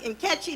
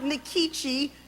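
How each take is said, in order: First: The name begins with a bare N sound. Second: The name begins with a full 'nee' syllable. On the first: This is how it would be said in Nigeria. "if I were in Nigeria, it would be Nkechi" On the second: This is the speaker's own usual pronunciation. "I pronounce it Nikichi"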